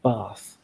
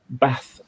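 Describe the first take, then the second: First: Said with a southern English vowel. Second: Said with a northern English vowel. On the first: "instead of" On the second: "I've lived in the north en- enough now that I'll say"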